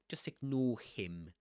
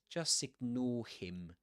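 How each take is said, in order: Both takes have the same delivery.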